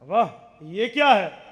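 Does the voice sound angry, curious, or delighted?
delighted. It is said in a delighted, amazed tone. The speaker is pleasantly surprised by it. "इसका माने ताज्जुब है, खुशी है, हैरानगी है"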